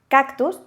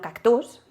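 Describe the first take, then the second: First: The stress is on the first syllable. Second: The stress is on the last syllable. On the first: The speaker calls it right. "sabemos que el golpe de voz está aquí" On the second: The speaker calls it wrong. "y no cactus"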